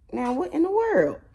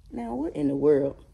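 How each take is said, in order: First: Much higher, sing-song repeat; mock baby-talk question. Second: Said in the usual way. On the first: Owner asking the dramatic dog, high mock disbelief. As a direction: ask it again in a high doggy voice.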